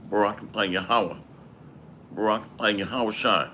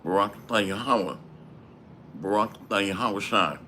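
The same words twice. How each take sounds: The two takes are said the same way.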